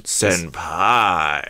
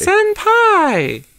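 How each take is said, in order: First: Senpai low, with a falling tune; changed inflection. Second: Senpai squealed very high and loud. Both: Shown as a demonstration. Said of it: "Maybe if I change the inflection".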